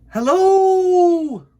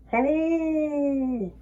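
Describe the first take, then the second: First: Long, very high, loud call; shout. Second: Echoing moon. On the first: Bear calling up to the moon, loud shout. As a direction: call out across the night. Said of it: "he shouted". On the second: The moon echoing Bear's call, distant echo. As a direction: answer like a faint echo. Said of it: "replied the moon". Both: Acted.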